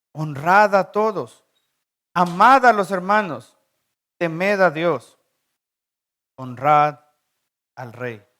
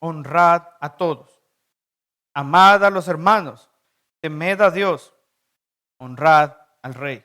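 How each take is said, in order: Both takes have the same delivery.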